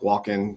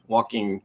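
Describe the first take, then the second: First: The ending is clipped without the g sound. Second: The ending is said fully with the g. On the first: The speaker calls it wrong. "it's kind of like just lazy talk" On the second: The speaker calls it right. "it's got an ing"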